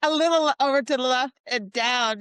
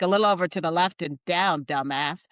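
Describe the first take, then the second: First: It is said in a sweet, affectionate tone. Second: It is said in an annoyed, insulting tone.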